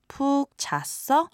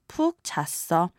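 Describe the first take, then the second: First: The pitch rises at the end. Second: The pitch falls at the end. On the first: It asks whether the person slept well. "Ask them how they slept by using the past tense question forms" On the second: It states that the speaker slept well. "To answer, you just have to change the intonation"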